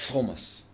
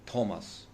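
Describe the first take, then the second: First: "Thomas" dropping the T, like "omas"; Thomas without t. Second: "Thomas" with a hard aspirated T. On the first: Comedian showing the approved way, "Thomas" without its T. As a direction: swallow the T in "Thomas". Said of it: "You say". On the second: Comedian showing the forbidden pronunciation, "Thomas" with a hard T. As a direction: say "Thomas" with a crisp T. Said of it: "You cannot say Thomas". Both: Shown as a demonstration.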